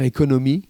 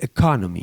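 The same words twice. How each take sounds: First: "économie" said the French way, without English stress; French-style economy. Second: "economy" with the stress on "con"; stressed second syllable. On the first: Shown as a demonstration. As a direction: say "économie" evenly, with French vowels. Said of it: "il me corrigeait l'accent". (« économie » prononcé à la française) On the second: Retold or imitated. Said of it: "l'accent tonique". (accent tonique sur « con » de « economy »)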